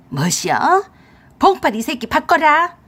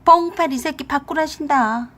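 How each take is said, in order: First: Loud, high, outraged demand; angry older woman's shout; fierce mother-in-law. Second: Wife passing on an order, raised voice; mock-stern relay of mother's demand; relayed summons. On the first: Acted. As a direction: demand him on the phone, furious. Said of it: "시어머니 앙칼진 목소리를 듣더니". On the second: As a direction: call it across to the husband, high and taunting. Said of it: "건넌방인 남편에게 그랬어요".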